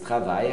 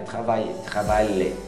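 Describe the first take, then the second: First: The word ends in a long I sound. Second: The word ends with L and E sounds. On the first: The speaker calls it right. "como se fosse um I mais longo" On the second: The speaker calls it wrong. "Não pronuncia nem o L nem o E"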